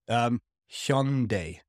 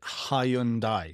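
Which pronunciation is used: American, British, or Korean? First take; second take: Korean; British. First: It is said the Korean way, starting with 'hyun'. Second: It is said the British way, in three syllables. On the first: The speaker calls it right. "like H-Y-O-N or H-Y-E-O-N" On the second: The speaker calls it wrong. "British people say it Hyundai, three syllables, also wrong"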